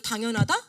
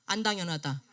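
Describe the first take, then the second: First: 당연하다 with a rising, questioning end; leading question. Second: 안 당연하다 lower, with a falling end; dismissed alternative. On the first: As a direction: lift the end of 당연하다 to prompt the class. Poses first option to the class. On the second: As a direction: drop 안 당연하다 down as the unlikely option. Poses the opposite option. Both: Shown as a demonstration.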